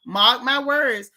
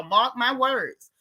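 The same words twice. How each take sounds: First: Slow and louder, driving it home; firm warning. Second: Slow, deliberate warning. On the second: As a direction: lay each word down slowly. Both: Real, not acted.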